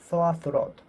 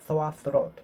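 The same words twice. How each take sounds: The two takes are said the same way.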